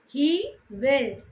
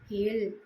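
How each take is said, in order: First: Both words are said in full. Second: The two words merge into one short syllable.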